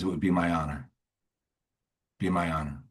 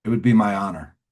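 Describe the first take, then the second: First: Low, softened, humble reply; sincere acceptance. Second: Louder, self-assured acceptance; smug reply. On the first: Sponsor answers a dying man's plea, low and sincere. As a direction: let it land quietly and earnestly. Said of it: "And he says". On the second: Sponsor accepts the newcomer's request, heard as smug. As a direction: answer with a touch of smugness. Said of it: "What a smug thing". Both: Retold or imitated.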